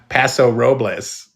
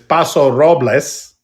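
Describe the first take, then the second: First: The name is said with English pronunciation. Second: The name is said with Spanish pronunciation. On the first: "in English, it's pa- Paso Robles" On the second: "in Spanish, it's Paso Robles"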